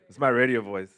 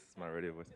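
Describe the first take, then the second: First: Booming announcer read, much louder; hammed-up radio host voice. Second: Much softer, dropped back down; soft throwaway repeat; plain. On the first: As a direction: project like a radio DJ. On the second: Pretend. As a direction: say it quietly, as an aside.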